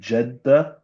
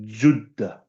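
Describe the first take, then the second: First: The first vowel sounds like 'e'. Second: The first vowel sounds like 'u'. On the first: This is the everyday modern form. "We say Jeddah" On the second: This is the old classical form. "The proper pronounce pronunciation from the time of the old Arabs is Juddah"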